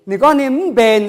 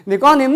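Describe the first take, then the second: First: "nè con nếm bền" stretched out slowly, loud, "con" held; slow repeat. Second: "Nè con nếm" said high and loud, stress on "con"; model phrase. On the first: (đọc chậm rãi "nè con nếm bền") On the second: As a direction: call out "Nè con nếm" loudly, leaning on "con". (đọc mẫu "Nè con nếm" to, nhấn "con") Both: Shown as a demonstration.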